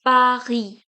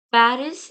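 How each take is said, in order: First: Paris as "pa-ree", final S silent; French Paris. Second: Paris with the final S sounded; English Paris. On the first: Teacher showing silent final consonants, Paris as "pa-ree". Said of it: "is pronounced as Paris in French". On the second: Teacher contrasting English with French, Paris with S sounded. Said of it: "Paris in English is pronounced as". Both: Shown as a demonstration.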